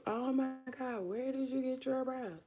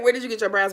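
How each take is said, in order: First: Light, somewhat higher gushing admirer; gushing fan. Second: Louder, firmer restated question; corrected louder. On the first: Retold or imitated. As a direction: coo it like an admirer. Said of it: "I was about to tell y'all". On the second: Shown as a demonstration. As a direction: say it clearly and firmly. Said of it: "I said".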